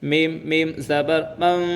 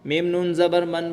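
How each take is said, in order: First: The syllable ends with an m sound. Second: The syllable ends with an n sound. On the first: The speaker calls it right. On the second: The speaker calls it wrong.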